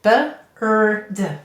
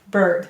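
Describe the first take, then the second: First: The word is split into separate sounds. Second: The word is said smoothly as one unit.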